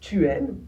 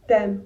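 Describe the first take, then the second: First: The vowel of tu is fully pronounced. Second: The vowel of tu is dropped before aimes. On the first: "prenons pour exemple tu aimes" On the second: "vous pouvez très bien dire t'aimes"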